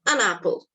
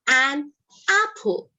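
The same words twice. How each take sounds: First: The n runs into apple like one word. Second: The two words are said separately. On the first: The speaker calls it right. "The N in an gets joined with the er sound in apple" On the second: The speaker calls it wrong. "You will not hear them say an apple"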